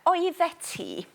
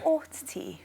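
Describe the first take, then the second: First: The first word is said with all its syllables. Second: The first word is shortened to one syllable.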